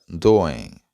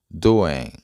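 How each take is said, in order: Both takes have the same delivery.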